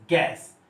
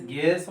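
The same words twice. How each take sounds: First: गैस with an open ऐ vowel; "गैस" with open ae, not ay; actual open A. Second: गैस said as "gase", with ay; "गैस" with a long e; expected AY vowel. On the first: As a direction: say गैस as English "gas". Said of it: "पर ये हो रहा है". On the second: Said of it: "गैस होना चाहिए था". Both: Shown as a demonstration.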